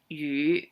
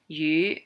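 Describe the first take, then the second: First: The syllable rises from a low pitch. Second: The syllable rises from a high pitch. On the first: It means rain. "rain would be the lower yu" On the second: It means fish. "the fish is like the little bit higher yu"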